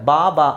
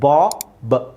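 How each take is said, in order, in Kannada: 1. ಎರಡೂ ಅಕ್ಷರಗಳಲ್ಲಿ ಒಂದೇ ದೀರ್ಘ ಸ್ವರ ಇದೆ. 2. ಎರಡನೇ ಅಕ್ಷರದ ಸ್ವರ ಚಿಕ್ಕದಾಗಿದೆ. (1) "ನೀವು ಎರಡು ಒಂದೇ ಥರ ಹೇಳ್ತಾ ಇದ್ದೀರಾ. ಬಾ ಬಾ ಅಲ್ಲ" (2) "ಚಿಕ್ಕದು ಬ"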